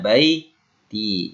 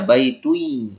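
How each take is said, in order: First: The word ends with a plain 'i' sound. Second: The word ends with a 'ui' sound. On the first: The speaker calls it right. "Dibacanya baiti" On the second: The speaker calls it wrong. "tidak mungkin dibaca baitui"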